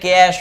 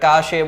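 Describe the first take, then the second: First: It is said with one syllable. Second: It is said with two syllables. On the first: The speaker calls it right. "But is એકચ્યુઅલમાં શું છે?" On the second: The speaker calls it wrong. "કાશે બોલીએ"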